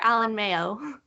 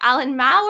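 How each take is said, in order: First: The surname has two syllables, like mayo. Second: The surname is one syllable, rhyming with cow. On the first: The speaker calls it wrong. "just like mayonnaise" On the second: The speaker calls it right. "it's supposed to be Mao"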